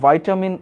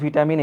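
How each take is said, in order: First: The first syllable sounds like 'vie'. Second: The first syllable sounds like 'vih'. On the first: This is how some people say it. "অনেকে এরকম বলেন ভাইটামিন A" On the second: This is the familiar way heard since childhood. "আমি ছোটবেলা থেকে ভিটামিন ভিটামিন এইভাবেই শুনে আসি"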